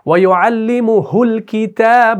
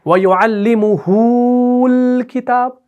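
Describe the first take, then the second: First: The vowel after the h stays short. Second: The vowel after the h is drawn out long. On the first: The speaker calls it right. "इसमें सिला नहीं होगा" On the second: The speaker calls it wrong. "ये गलत है"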